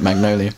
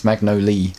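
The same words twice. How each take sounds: First: "Magnolia" in four syllables, mag-no-lee-uh; Magnolia with final "a". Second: "Magnolia" with the final "a" dropped, ending on "lee"; Magnolia as "mag-no-lee". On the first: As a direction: end "Magnolia" on a clear "lee-uh". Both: Shown as a demonstration. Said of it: "You called it Magnolia".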